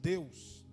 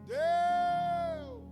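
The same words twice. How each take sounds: First: It is said at normal volume. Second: It is shouted even louder.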